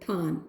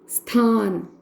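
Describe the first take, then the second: First: The word starts without an s sound. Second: The word starts with an s sound.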